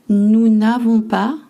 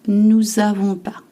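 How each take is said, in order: First: The n sound before the verb is pronounced. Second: The n sound before the verb is dropped. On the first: This is the full standard negative form. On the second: This is how it is said in common spoken French.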